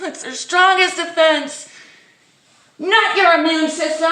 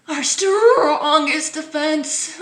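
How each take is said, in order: First: Much higher and louder indignant rant, stress on strongest; mock outrage. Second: Slow, high and loud mock quote; mock official. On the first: Vlogger ranting at the health message, mock outrage. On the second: Vlogger mocking the health message, slow mock voice. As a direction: parody the official line slowly.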